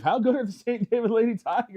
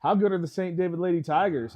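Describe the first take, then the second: First: Higher, louder, laughing through it; teasing Dave with a laughing, higher repeat; laughing tease. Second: Said in the usual way. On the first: Acted. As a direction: needle your co-host with a giggle. Repeats question, teasing co-host.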